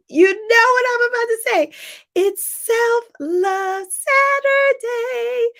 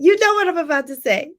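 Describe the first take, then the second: First: Excited catchphrase. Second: Said in the usual way. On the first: Shown as a demonstration.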